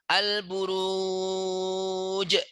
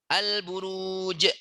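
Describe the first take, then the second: First: The long vowel is held for four counts. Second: The long vowel is held for two counts. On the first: "Itu contoh yang empat harokat" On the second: "Dua harokat tuh"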